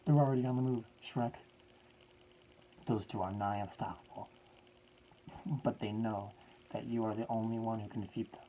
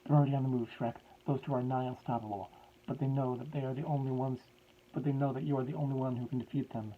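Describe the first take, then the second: First: Said in the usual way. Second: Higher, much louder put-on professor accent; professor's voice. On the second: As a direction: redo the line properly in the old professor's voice. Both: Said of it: "This is supposed to be in his voice".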